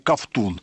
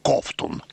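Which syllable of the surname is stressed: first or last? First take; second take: last; first. First: The stress is on the last syllable. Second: The stress is on the first syllable.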